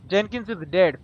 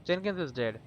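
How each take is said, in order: First: Blunt, loud announcement of death. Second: Softer, gentle breaking of bad news. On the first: Telling the stranger bluntly his friend is dead, loud. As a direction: state it hard and flat out. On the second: Gently telling the stranger his friend Jenkins died, soft. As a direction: ease the news to him softly. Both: Shown as a demonstration. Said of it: "Be gentle".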